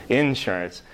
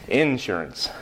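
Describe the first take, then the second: Both takes have the same delivery.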